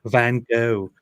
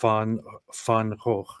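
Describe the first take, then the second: First: The name is said with English sounds. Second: The name is said with Dutch sounds. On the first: "which is why people just say Van Gogh" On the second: "the actual pronunciation ... which is a very hard thing to say if you're not Dutch"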